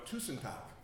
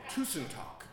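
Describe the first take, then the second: First: Tusen takk said as TOO-sen TAHK, Norwegian sounds; Norwegian pronunciation. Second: Tusen takk repeated as TOO-sen TAHK, clearer this time; Norwegian pronunciation again. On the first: Preacher teaching the church a Norwegian phrase, careful pronunciation. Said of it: "Now, here's one". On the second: Asked to repeat it for the congregation, careful Norwegian. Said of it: "I'll say it again". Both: Shown as a demonstration.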